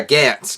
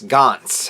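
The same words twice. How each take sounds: First: "Gantz" with the short a of "cat"; alternative pronunciation. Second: "Gantz" with an open "ah" vowel; alternative pronunciation. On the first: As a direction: say "Gantz" as "gants", rhyming with "pants". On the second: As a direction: say "Gantz" as "gahnts", like "gonts". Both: Shown as a demonstration. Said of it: "however you wanna say it".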